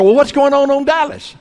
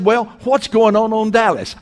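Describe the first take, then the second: First: Higher and louder, hammed-up eager nosiness; over-eager question. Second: A touch of eager, nosy curiosity, pitched higher; eager question. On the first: Preacher replaying his nosy question to the cashier, hammed-up eager. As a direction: repeat it, even more worked up and keen. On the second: Retold or imitated. Preacher retelling asking the cashier about Dallas, mildly eager. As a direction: ask it like you can't wait to hear the gossip. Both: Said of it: "like somebody that had lost their mind".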